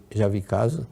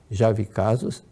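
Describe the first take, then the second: No difference in how they are said.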